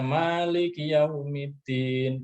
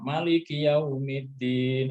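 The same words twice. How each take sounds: First: The first vowel of Maliki is long. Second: The first vowel of Maliki is short. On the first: "itu betul dan itu tidak menyalahi tajwid" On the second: "itu betul"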